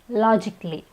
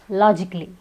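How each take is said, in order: The two takes are said the same way.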